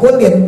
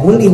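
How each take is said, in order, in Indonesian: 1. Kata ini diakhiri bunyi n tambahan. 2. Kata ini diakhiri vokal, tidak ada n di akhir. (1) "bukan kulin ya" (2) "nah itu ya kuli"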